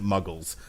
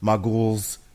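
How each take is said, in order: First: It is said in a plain, ordinary accent. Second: It is said in an odd, put-on accent. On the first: It is how everyone else pronounces it. "Everybody in the fucking six films that pronounces it Muggles" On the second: It imitates one actor's unusual pronunciation. "I love the way he pronounces this"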